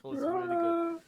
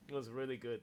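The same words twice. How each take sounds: First: Higher, louder, gushing; excited praise. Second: Said in the usual way. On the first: Real, not acted. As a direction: say it with a thrilled lift.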